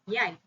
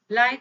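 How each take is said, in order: First: The word begins with a 'y' sound. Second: The word begins with an 'l' sound.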